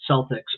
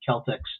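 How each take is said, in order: First: The word begins with a soft S sound. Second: The word begins with a hard K sound. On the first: The speaker calls it wrong. "they mispronounce it" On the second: The speaker calls it right. "should be Celtics... the hard C there"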